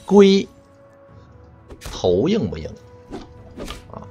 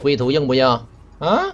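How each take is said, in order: First: There is a clear break after 龟. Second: It runs on without a break after 龟.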